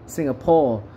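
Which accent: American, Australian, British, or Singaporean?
British. It is said in a British English accent. "Kalau British English Singapore"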